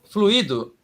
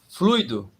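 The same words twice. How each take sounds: First: Three syllables, stress on the middle syllable. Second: Two syllables, stress on the first syllable. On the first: It is the past participle of the verb to flow. "Fluido são três sílabas. Flu, i, do" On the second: It is the noun for a fluid substance. "Fluido são duas sílabas. Flui, do. E a sílaba forte é flui"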